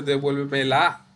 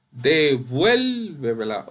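First: "devuélvemela" wrongly stressed on final LA; devuelveme-LA, rising at the end; stress on last syllable. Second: "Devuélvemela" slowly, VUEL long and raised; de-VUEL-vemela, tail dropping away; stress on VUEL. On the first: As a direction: push the weight onto LA in "devuélvemela". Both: Shown as a demonstration. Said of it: "Usted no dice devuélvemela".

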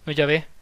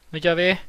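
Both takes have the same delivery.

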